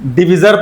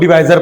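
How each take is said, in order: First: The second vowel is a short 'i' sound. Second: The second vowel is an 'ai' sound. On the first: "डिविजर पढ़ते हैं कुछ लोग" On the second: "कुछ लोग डिवाइजर पढ़ते हैं"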